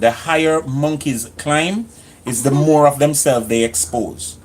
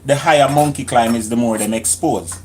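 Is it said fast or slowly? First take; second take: slowly; fast. First: It is said slowly. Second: It is said fast.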